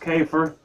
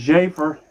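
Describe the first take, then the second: First: The name begins with a K sound. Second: The name begins with a J sound. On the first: The speaker calls it wrong. "not Kafer" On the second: The speaker calls it right. "his name is pronounced Jafer"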